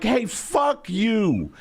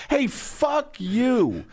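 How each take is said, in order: First: Slow, drawn-out "Hey, fuck you"; lazy pioneer telling someone off; slow hammed-up brush-off; mock settler tweet. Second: Slow, higher, drawn-out "Hey, fuck you"; lazy pioneer telling someone off; slow hammed-up brush-off; mock settler tweet. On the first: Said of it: "it'd be like".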